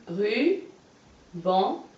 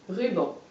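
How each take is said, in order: First: Ruban very slowly, ru, long pause, ban, each rising; split into syllables. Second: Said in the usual way. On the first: Shown as a demonstration. Teacher showing a pupil the syllables, ruban split by a long pause. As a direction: pull ruban apart into two separate syllables. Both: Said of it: "Et on recolle".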